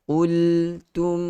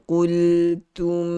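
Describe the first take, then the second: No difference in how they are said.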